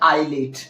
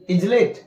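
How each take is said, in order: First: No s sound is pronounced before the l. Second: An s sound is pronounced before the l. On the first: The speaker calls it right. "एस नहीं पढ़ेंगे" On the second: The speaker calls it wrong. "गलत हो जाएगा"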